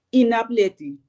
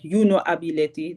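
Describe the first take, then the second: First: All the words run together as one. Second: Three separate words, starting with full 'you'. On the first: "Het lijkt bijna één woord wat je dan hoort" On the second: "In plaats van dat je zegt"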